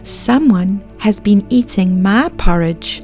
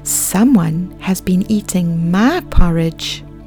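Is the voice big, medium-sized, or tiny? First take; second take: tiny; medium-sized. First: It is said in a tiny little voice. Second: It is said in a medium-sized voice.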